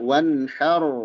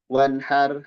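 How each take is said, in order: First: The final r sound is heavy. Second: The final r sound is unclear. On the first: The speaker calls it right. "rohnya tebal" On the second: The speaker calls it wrong. "rohnya tidak jelas, tebal atau tipis"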